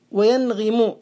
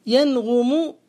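First: وينغم said wa-yanghimu; kasra form. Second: ينغم said slowly as yanghumu; damma form. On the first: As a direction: put an i after the gh in وينغم. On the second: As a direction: put a u after the gh in ينغم. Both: Shown as a demonstration. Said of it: "بالضم والكسر".

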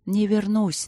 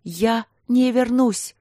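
First: Said in the usual way. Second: High, slow cry after him; hurled after him as he leaves; shouting. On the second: Acted. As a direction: shout it at his back. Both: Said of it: "закричала она".

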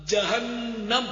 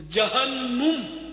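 First: "جہنم" drawn out as jahannam, a in the last syllable; correct pronunciation. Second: "جہنم" very slowly as jahannum, u in the last syllable; stretched mispronounced "جہنم", jahan-num; wrong pronunciation. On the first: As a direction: say "جہنم" carefully ending -nam. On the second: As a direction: drag out "جہنم" ending -num. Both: Shown as a demonstration. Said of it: "غلط".

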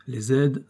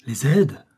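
First: Said in the usual way. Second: Startled cry. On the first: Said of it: "Me voici dans la place". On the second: A narrator's reading. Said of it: "s'écria le général".

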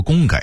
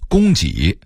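First: 供给 as gōnggěi; Beijing-style 供给 ending in gěi; Beijing dialect reading. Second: Said in the usual way. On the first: Shown as a demonstration. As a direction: say 给 in 供给 as gěi, not jǐ. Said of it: "北京话说". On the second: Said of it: "北京话说供给".

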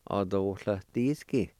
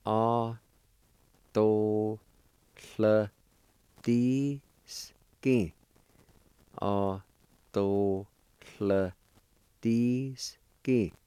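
First: Autohletisky said at speaking speed; Autohletisky with a falling end, natural pace; Cherokee word at normal pace. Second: Autohletisky stretched out very slowly; Autohletisky said at a crawl, syllable by syllable; very slow Cherokee word. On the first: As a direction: say Autohletisky as one smooth word. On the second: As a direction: draw out every syllable of Autohletisky. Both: Shown as a demonstration. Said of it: "It's pronounced like this".

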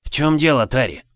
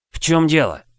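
First: Sudden alarmed question; worried question. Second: Sharp worried question. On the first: Friend calls out worried. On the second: Same question, now pursuing. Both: Acted. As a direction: ask in alarm.

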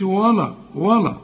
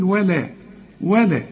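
First: ولا said thick and dark, "waw-law"; wrong heavy lam. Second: ولا said thin, "wa-le"; light lam. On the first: Teacher shows what not to say, ولا with heavy lam. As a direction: fatten the l and vowels of ولا. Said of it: "ما تقولش". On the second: Teacher shows what to say, ولا with light lam. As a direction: keep the l and vowel of ولا light. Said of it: "هنقول". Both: Shown as a demonstration.

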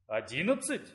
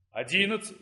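First: Lower, softer questioning repeat; puzzled recount. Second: Said in the usual way. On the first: A narrator's reading. Young man recounting the deans to himself, puzzled. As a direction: say it to yourself, doubting the count. Startled recount, one dean missing.

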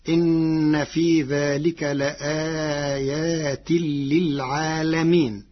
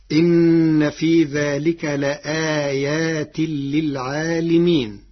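First: للعالمين recited as "lil-'aalameen"; slow recitation, للعالمين with an a after the lam; fatha on lam. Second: للعالمين recited with "li" in "lil-'aalimeen"; slow recitation, للعالمين with an i after the lam; kasra on lam. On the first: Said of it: "بفتح اللام، فتصير". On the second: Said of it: "قرأ ورش كلمة للعالمين بفتح اللام". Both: Shown as a demonstration.

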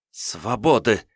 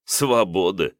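First: Bold demand, ringing out; defiant cry. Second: Scoffing, incredulous question; amused disbelief. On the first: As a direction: shout it as a demand. Captive girl demands freedom. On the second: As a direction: echo her word with a laugh. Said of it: "Князь неожиданно расхохотался". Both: Acted.

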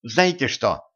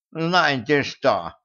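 First: Said in the usual way. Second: Slow mocking higher echo of «Знаете что?»; mocking imitation. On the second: A narrator's reading. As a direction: mimic her line, teasing. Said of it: "передразнил Кощей". (передразнивая)

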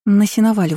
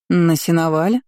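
First: Said in the usual way. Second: "На сеновале?" rising at the end as a question; questioning echo. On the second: A narrator's reading. Mother doubting the hayloft story, questioning "На сеновале?". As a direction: repeat "На сеновале?" in mild disbelief. Mother echoes the answer, astonished.

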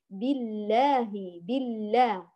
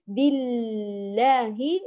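First: بالله moving straight through the doubled l to aa; direct shadda. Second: Very slow بالله, l dragged out; stretched doubled lam. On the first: Teacher models the correction, lam not stretched. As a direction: say بالله without lingering on the l. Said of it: "مباشرة". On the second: Teacher recaps the second mistake, lam over-stretched. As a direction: hold the l of بالله far too long. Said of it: "لا نمطط اللام المشددة". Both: Shown as a demonstration.

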